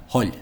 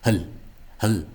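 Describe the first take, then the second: First: "Hull" with a longer rounded o and slender L; corrected pronunciation. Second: "Hull" as a brief schwa syllable, "hul"; overly short. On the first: Teacher correcting him, full-vowelled "Hull". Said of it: "what he's saying is wrong". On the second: Teacher mimicking the male speaker, clipped "Hull". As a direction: cut the vowel of "Hull" very short. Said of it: "overly short pronunciations". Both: Shown as a demonstration.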